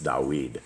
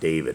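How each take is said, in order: First: The middle consonant is a w sound. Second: The middle consonant is a v sound. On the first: The speaker calls it right. "the actual the right pronunciation" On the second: The speaker calls it wrong. "the king of Israel is not David"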